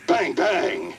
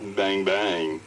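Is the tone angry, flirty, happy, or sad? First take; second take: angry; flirty. First: It is said in an angry tone. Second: It is said in a flirty tone.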